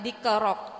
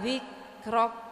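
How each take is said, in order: First: The word begins with a plain hard 'd' sound. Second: The word begins with a soft 'dh' sound. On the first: The speaker calls it wrong. "bukan dikrok" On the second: The speaker calls it right. "wa rafa'na laka dzikrok ya"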